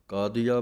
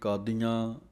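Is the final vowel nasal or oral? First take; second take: oral; nasal. First: The final vowel is oral. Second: The final vowel is nasal. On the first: The speaker calls it right. "ਕਾਦੀਆ ਪਾਠ ਪੁੱਲਾ ਪੜ੍ਹਨਾ ਹੈ" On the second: The speaker calls it wrong. "ਕਈ ਕਾਦੀਆਂ ਬਿੰਦੀ ਲਾ ਕੇ ਪੜ੍ਹ ਜਾਂਦੇ ਹਨ"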